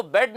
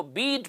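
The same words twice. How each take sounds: First: बेड with short e, as in bread; wrong reading. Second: बीड with a long ee vowel; correct reading. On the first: Teacher shows students the misreading बेड, wrong vowel e. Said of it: "इसको बेड नहीं पढ़ते". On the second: Teacher corrects the reading to बीड, long ee sound. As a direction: model बीड with ee in the middle. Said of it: "इसको बीड पढ़ते हैं". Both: Shown as a demonstration.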